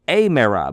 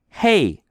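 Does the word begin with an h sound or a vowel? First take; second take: vowel; h sound. First: The word begins directly with a vowel sound. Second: The word begins with an audible h sound. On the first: The speaker calls it wrong. "If it were smooth, it would be a mera" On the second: The speaker calls it right. "It's rough"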